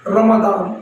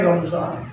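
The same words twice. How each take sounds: First: रमदान with a d sound; Arabic-style d in रमदान; Arabic pronunciation. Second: रमजान with a z sound; Urdu-style z in रमजान; Urdu pronunciation. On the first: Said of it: "सुना हो कहीं कहीं रमदान". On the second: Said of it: "हम यहाँ बोल रहे हैं". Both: Shown as a demonstration.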